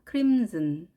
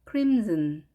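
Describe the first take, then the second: Both takes have the same delivery.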